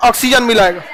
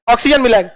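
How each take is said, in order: Both takes have the same delivery.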